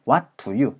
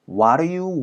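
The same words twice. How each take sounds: First: Each sound is pronounced fully and separately. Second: The T drops and D becomes a flap. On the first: "이렇게 정직하게 여러분들이 사운드를 잘 못 들어보실 거고요" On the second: "모음 사운드 사이에서 D 사운드가 굴려지면서"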